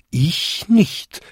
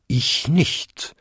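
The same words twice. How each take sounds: First: Higher chime, rising at the end; high, ringing little denial; smaller bells chiming. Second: Lightly voiced bell, rising at the end; short bonging denial; second-largest bell bonging. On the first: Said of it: "bampten und bimmten die nächsten fünf Glocken". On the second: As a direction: answer as a big bell, with a slight lift. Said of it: "bummte die zweitgrößte". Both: A narrator's reading.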